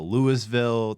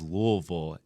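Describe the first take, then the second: First: It is said the outsider way. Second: It is said the local way. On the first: The speaker is not from the city. The speaker calls it wrong. "and not Louisville" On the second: The speaker is from the city. The speaker calls it right. "she says Louisville"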